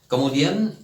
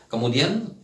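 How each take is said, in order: Both takes have the same delivery.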